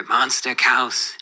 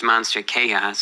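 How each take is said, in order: First: Slow "Monster Chaos", with "Chaos" squashed into one syllable like "cows"; "Chaos" said as "kowss", slowly; mispronounced Chaos. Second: Said in the usual way. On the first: Retold or imitated. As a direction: imitate someone mispronouncing "Chaos" as "kowss", drawn out. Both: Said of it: "he really just mispronounced Monster Chaos".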